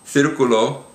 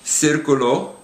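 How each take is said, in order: First: The first consonant is a th sound. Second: The first consonant is an s sound. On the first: This is the pronunciation used in most of Spain. "pronounced with a T H kind of a sound" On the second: This is the Latin American pronunciation. "pronounced like an S"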